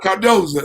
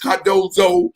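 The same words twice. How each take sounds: First: The name gets its local, informal pronunciation. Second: The name gets its standard, formal pronunciation. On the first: This is how the school's own community says it. "but we call it Cardozo" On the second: This is the officially correct form of the name. "we do know the correct pronunciation of my alma mater. It is Cardozo"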